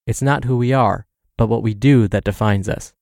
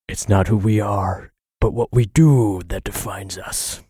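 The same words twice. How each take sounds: First: It is spoken in the speaker's ordinary voice. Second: It is spoken in a deep, gravelly put-on voice. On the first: "As Bruce Wayne tells us" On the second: "I gotta do that with the Bruce Wayne voice"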